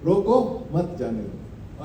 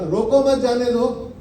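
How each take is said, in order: First: "रोको", a break, then "मत जाने दो" low and soft; pause after रोको. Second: "रोको मत" in one breath, then "जाने दो"; group it as "रोको मत", then "जाने दो"; मत joined to रोको. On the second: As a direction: run रोको straight into मत. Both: Shown as a demonstration. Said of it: "मतलब कितना अलग हुआ ना".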